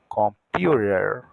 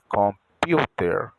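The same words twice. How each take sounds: First: New York accent, T sounds like an R. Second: Los Angeles accent, T is a clear T.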